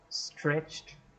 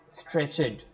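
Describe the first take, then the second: First: The word is said as one syllable. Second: The word is said as two syllables. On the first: The speaker calls it right. "It's stretched one syllable" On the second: The speaker calls it wrong. "not stretched"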